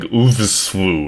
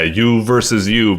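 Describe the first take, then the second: First: The title is blended into one odd word. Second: The title is said as three separate words. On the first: The title was misread from its written form. The speaker calls it wrong. "I just kept saying like oovswoo or something like that" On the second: The title names a game about competing against yourself. The speaker calls it right. "yeah, you versus you"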